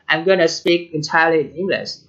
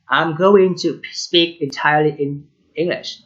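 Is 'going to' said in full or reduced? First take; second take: reduced; full. First: 'Going to' is reduced to 'gonna'. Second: 'Going to' is said in full. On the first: This is how native speakers casually say it. "they don't say I'm going to, but they say I'm gonna" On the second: This is how the written text is read. "but now we are practicing reading the text"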